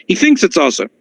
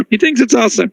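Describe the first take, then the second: First: Said in the usual way. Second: Higher, with "thinks" punched; emphatic repeat. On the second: Shown as a demonstration. Rabbi repeating the ruling to his class, "thinks" stressed higher. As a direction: push hard on "thinks" in the repeat.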